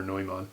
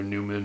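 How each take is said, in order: First: "Neumann" said as NOY-mahn; "Neumann" the German way, NOY-mahn; German-style pronunciation. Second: "Neumann" said as NEW-mun; "Neumann" the English way, NOO-mən; anglicized pronunciation. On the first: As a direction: say "Neumann" with an oy sound and a full ah. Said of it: "I think Neumann must be, must be more correct". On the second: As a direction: say "Neumann" with an oo sound and a weak second syllable. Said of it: "jump back and forth between the pronunciation of". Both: Shown as a demonstration.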